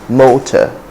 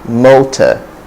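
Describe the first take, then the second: Both takes have the same delivery.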